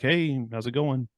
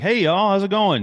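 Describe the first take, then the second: First: The greeting is said with ordinary, low energy. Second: The greeting is said with lively, high energy.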